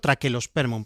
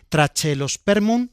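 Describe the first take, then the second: First: The middle consonant is a hard 'k' sound. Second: The middle consonant is a 'ch' sound. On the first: "Correctamente habría que decirlo Traquelospermum" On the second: "pero yo pronuncio la che"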